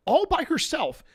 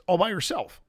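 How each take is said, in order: First: ALL pitched way up high; high, incredulous stress on "all"; emphatic repeat. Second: Said in the usual way. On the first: Real, not acted. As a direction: stretch and lift "all" in amazement.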